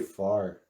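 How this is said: It is said in a Minnesota American accent. "in Minnesota we say"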